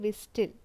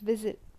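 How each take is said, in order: First: The T sound is pronounced in the middle. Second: The T sound is left silent. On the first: The speaker calls it wrong. "We never say whistle" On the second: The speaker calls it right. "It's whistle"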